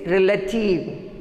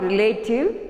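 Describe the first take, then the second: First: "relative" as REL-uh-tiv; "relative" opening on a short "rel"; correct pronunciation. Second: "relative" as ri-LAY-tiv; "relative" with a long a; wrong pronunciation. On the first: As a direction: say "relative" with a weak middle vowel. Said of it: "It is relative". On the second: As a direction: say "relative" with "late" in the middle. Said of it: "It is not relative". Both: Shown as a demonstration.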